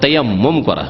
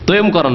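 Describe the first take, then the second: First: The first word is said with all its syllables. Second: The first word is clipped to two short syllables. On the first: The speaker calls it right. "তয়ম করা নয়" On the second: The speaker calls it wrong. "আমাদের দেশের আবার বিকৃত ভাষায় তয়ম করা বলে"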